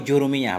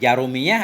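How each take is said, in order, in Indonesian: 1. Huruf vokal pertama adalah u bulat. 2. Huruf vokal pertama adalah a terbuka. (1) "dibaca dengan dhammah jim ju" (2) "dengan fathah ja"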